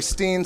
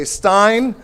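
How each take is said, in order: First: Steen said with an ee vowel, rhyming with green; pronounced Steen. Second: Stein said slowly with an eye vowel, rhyming with fine; pronounced Stein. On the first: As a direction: say Steen, stretching the long ee. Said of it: "Some say". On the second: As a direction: draw out Stein with a long eye sound. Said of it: "some say". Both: Shown as a demonstration.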